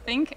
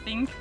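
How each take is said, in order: First: The word begins with a th sound. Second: The word begins with a non-th sound. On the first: The speaker calls it right. "doing the think" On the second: The speaker calls it wrong. "and not the think"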